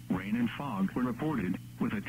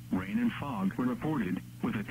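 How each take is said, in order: Both takes have the same delivery.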